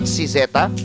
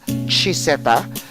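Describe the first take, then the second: First: The name begins with an s sound. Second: The name begins with a ch sound. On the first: The speaker calls it wrong. "not Cizeta" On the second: The speaker calls it right. "This is pronounced as Chiseta"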